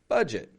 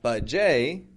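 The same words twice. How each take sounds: First: The word ends with an 'it' sound. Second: The word ends with an 'ay' sound. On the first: The speaker calls it right. "Not for American English speakers, we say budget" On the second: The speaker calls it wrong. "that does have an E T ending, just like buffet and valet, but it's not budget"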